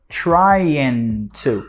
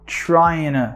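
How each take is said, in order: First: The t of 'to' is clearly pronounced. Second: The t is dropped, blending into the n.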